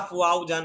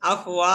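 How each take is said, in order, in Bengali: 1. মাঝের শব্দটি 'o' ধ্বনি দিয়ে শেষ হয়। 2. মাঝের শব্দটি 'a' ধ্বনি দিয়ে শেষ হয়। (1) "আবার কয় আফ ওয়াও জান ভাই।" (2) "এবার সুন্দর হয়েছে।"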